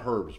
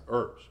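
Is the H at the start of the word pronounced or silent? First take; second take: pronounced; silent. First: The word begins with an audible H sound. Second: The word begins with no H sound. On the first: The speaker calls it wrong. "It's not herbs" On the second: The speaker calls it right. "The H is silent"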